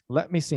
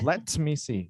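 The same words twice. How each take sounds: First: The T in "let" is soft. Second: The T in "let" is hard. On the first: The speaker calls it right. "that T a little bit softer" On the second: The speaker calls it wrong. "instead of"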